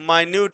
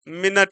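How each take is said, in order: First: The word is said as my-nyoot. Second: The word is said as min-it. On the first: "इसका हम जो pronunciation हो गया वो माइन्यूट हो गया" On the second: "और दूसरा क्या है, मिनट हो गया"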